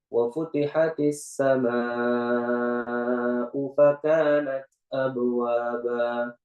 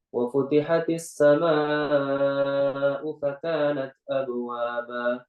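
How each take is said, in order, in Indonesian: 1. Bacaan ini dibaca dengan tempo sedang. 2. Bacaan ini dibaca dengan tempo cepat. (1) "Kalau kita tadwir" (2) "Atau kita hadar"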